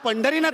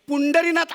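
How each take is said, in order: First: The first vowel is 'a', with aspirated 'dh'. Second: The first vowel is 'u', with plain 'd'. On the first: This is the real name. The speaker calls it right. "अहो माझं नाव पंढरीनाथ आहे हो" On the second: This is a misreading of the spelling. The speaker calls it wrong. "पुंडरीनाथ असं कोणी नाव नाही ठेवत"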